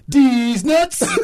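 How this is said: It is said with lively enthusiasm. "He says it with enthusiasm"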